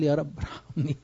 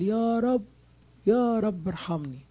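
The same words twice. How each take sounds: First: Said in the usual way. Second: High, slow plea for mercy, pitched up on the first cry; anguished cry for mercy; crying out to God. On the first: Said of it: "أول ما قال". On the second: Retold or imitated. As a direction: beg the Lord aloud, drawn out. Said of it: "راح صارخ صرخة قوية".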